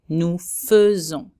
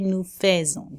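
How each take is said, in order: First: The first vowel sounds like 'feu'. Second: The first vowel sounds like 'fay'. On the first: The speaker calls it right. "it has to be said feu" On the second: The speaker calls it wrong. "We never say nous faisons. This is wrong"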